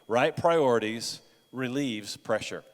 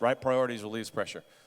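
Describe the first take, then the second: First: The phrase is said at a normal pace. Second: The phrase is said very quickly.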